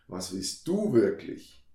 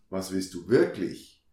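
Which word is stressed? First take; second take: du; wirklich. First: The stress is on du. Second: The stress is on wirklich.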